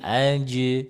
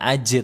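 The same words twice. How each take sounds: First: The final j is held without breath release. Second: The final j is released with a breathy puff. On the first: The speaker calls it right. "tapi aja ... Sebisa mungkin ditahan" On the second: The speaker calls it wrong. "jangan dikasih hamas. ... bukan aja"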